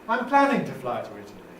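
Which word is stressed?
planning. The main stress falls on planning. "We can put the nucleus on plan, planning"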